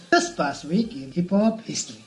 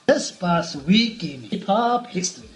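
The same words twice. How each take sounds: First: Presenter's segment intro; radio voice. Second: Slow, drawn-out radio announcer delivery; louder radio voice. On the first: Host shows co-hosts how he says the segment line, radio voice. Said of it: "It's like this". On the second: Host repeats the segment line for teasing co-hosts, emphatic radio voice. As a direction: announce it slowly and deliberately for radio. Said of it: "I say it louder". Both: Shown as a demonstration.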